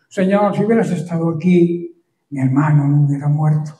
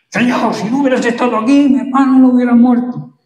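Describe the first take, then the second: First: It is said in a gentle tone. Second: It is said in a reproachful tone.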